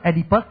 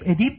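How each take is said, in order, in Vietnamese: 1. Nó được đọc theo kiểu tiếng Anh, kết thúc bằng -us. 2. Nó được đọc theo kiểu tiếng Pháp, không có -us. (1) "Trong khi cái người kia gọi là Oedipus" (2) "người nào của ven quen tiếng Pháp cũng gọi này là Oedip"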